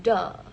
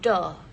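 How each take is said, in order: First: The first sound is a stopped 'd'-like sound. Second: The first sound is a stopped 'd'-like sound.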